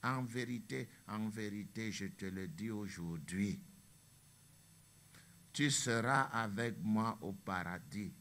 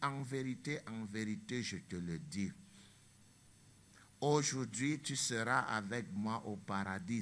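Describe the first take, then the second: First: The pause comes after 'aujourd'hui'. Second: The pause comes before 'aujourd'hui'.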